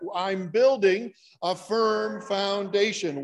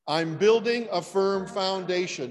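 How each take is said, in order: First: It is said with strong conviction. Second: It is said casually, without much conviction.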